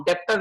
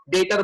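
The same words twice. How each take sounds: First: "डेप्टर" with an audible P before T; mispronounced debtor. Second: "डेटर" with no B or P sound; silent B. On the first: Teacher warns students off it, "डेप्टर" with P sounded. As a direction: sound the silent letter in "डेप्टर" as P. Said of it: "डेप्टर नहीं बोलते". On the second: Teacher gives students the correct word, "डेटर" with silent B. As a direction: say "डेटर", straight from vowel to T. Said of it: "डेटर बोलते हैं". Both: Shown as a demonstration.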